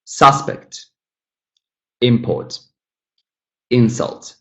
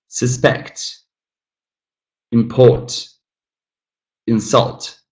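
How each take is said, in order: First: "Suspect, import, insult" as SUS-pect, IM-port, IN-sult; first-syllable stress. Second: "Suspect, import, insult" as sus-PECT, im-PORT, in-SULT; second-syllable stress. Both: Shown as a demonstration. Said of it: "moved the stress the second time".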